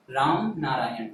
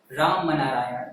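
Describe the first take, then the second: First: राम नारायण with राम ending cleanly on m, no vowel after; right reading of the name. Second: राम नारायण with an extra a after राम, like Rama Narayan; wrong reading of the name. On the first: Teacher showing pupils the correct reading, राम closed on m. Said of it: "बोल रहे". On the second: Teacher showing pupils the wrong reading, राम said as रामा. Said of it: "ऐसा नहीं बोल रहे अपन". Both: Shown as a demonstration.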